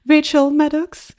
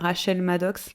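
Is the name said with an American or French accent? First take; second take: American; French. First: The name is said with an American accent. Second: The name is said with a French accent.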